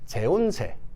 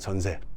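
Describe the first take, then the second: First: It is read letter by letter, Spanish-like. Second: It is said with normal Korean pronunciation. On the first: "스페인어 같기도 하고 그 라틴어 같기도 합니다. 소리 나는 대로 읽어볼까요?" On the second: "전세입니다"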